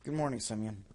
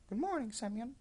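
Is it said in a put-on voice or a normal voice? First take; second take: normal voice; put-on voice. First: It is said in his own normal voice. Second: It is said in a put-on character voice.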